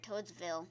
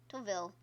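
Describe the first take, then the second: First: "Toadsville" with a clear s after "Toad"; "Toadsville" said as Toads-ville, s clearly sounded; corrected name. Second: "Toadville" said without the s, dropping it after "Toad"; "Toadville" clipped to Toad-ville with no s sound; wrong name said. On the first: Fixing the name, softer, "Toadsville" with the s. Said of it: "There we go". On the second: Trying out the wrong name, "Toadville" with no s. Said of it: "That sounded weird". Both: Shown as a demonstration.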